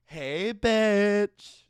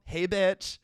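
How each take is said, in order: First: Put-on cocky cool-girl greeting, higher and louder; cool Supergirl. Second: Giggling through the greeting; laughing Supergirl quote. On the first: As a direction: nail it like a swaggering teen hero. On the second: Retold or imitated. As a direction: crack up mid-impression. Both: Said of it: "seventeen-year-old cool Supergirl".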